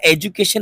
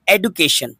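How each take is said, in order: First: "एजुकेशन" with a j sound for the d; rejected j pronunciation. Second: "एडुकेशन" with a hard d, no j; clear d pronunciation. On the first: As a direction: blend the d into j in "एजुकेशन". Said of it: "एजुकेशन नहीं". ("एजुकेशन", 'ड' की जगह 'ज' बोलकर) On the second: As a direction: keep a distinct d in "एडुकेशन". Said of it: "एडुकेशन पढ़ा जाएगा". ("एडुकेशन", साफ़ 'ड' की आवाज़ के साथ) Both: Shown as a demonstration.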